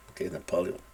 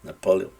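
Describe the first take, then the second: First: Napoleón said the Spanish way, na-po-le-ON. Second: Napoleón said the English way, stress on the PO; English Napoleon. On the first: Teacher showing the wrong Spanish way, Spanish-style Napoleón. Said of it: "No, no es Napoleón, como es en español". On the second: Teacher correcting to the English way, English Napoleon. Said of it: "No, no es Napoleón". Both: Shown as a demonstration.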